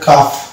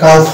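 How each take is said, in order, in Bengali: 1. L ধ্বনিটি F-এর আগে নীরব থাকে। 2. L ধ্বনিটি F-এর আগে উচ্চারিত হয়। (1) "এটা হবে কাফ" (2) "এটা কালফ হবে না"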